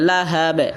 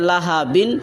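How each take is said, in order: First: The word ends sharply on a bare 'b'. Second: The word ends with an added 'in' sound. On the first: The reader stops at the end of the verse. "যদি আপনি থামেন তাহলে হবে লাহাব" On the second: The reader continues without stopping. "এখানে আছে লাহা বিন"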